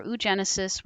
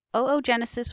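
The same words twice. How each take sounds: First: Oogenesis begun with a single "oo"; oo-genesis pronunciation. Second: Oogenesis begun with a doubled "oh"; oh-oh-genesis pronunciation. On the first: Teacher repeats both forms, then oogenesis as "oo-JEN-uh-sis". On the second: Teacher repeats both forms, first oogenesis as "oh-oh-JEN-uh-sis". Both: Shown as a demonstration. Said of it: "I've heard it also pronounced that way".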